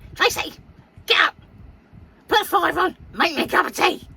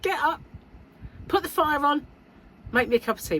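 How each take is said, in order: First: It is said in her mum's witchy voice. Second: It is said in her own normal voice.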